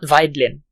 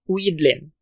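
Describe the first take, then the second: First: The first vowel is said as 'eye'. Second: The first vowel is said as 'ee'. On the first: The speaker calls it wrong. "not Weidlin" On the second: The speaker calls it right. "Weedlin, not Weidlin"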